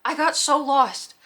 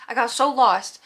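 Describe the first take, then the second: First: "I got so lost" stretched out slowly, weight on "got"; slow, drawn-out lament. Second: "I got so lost" at normal pace, punching "so"; stress on so. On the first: Embarrassed at herself, she drags out "I got so lost" slowly. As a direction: drag out "I got so lost", leaning on "got". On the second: Embarrassed at herself, she punches "so" in "I got so lost". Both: Shown as a demonstration.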